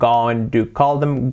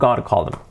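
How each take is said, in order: First: Going to is said in full, clearly. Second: Going to is reduced to a quick gonna.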